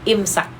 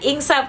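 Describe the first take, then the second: First: It has an m sound and ends in k. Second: It has an ng sound and ends in p. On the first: The speaker calls it right. "im, imsak" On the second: The speaker calls it wrong. "Bukan ingsap kak"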